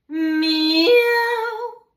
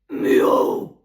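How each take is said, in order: First: The meow has a sudden break in voice. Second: The meow is a deep guttural grunt. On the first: "vocal break kissa" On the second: "Örinäkissa"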